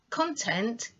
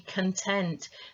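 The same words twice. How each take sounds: First: The stress is on the first syllable. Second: The stress is on the second syllable. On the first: It means what is inside something. "is what's inside" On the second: It means a feeling of being satisfied. "to mean the feeling"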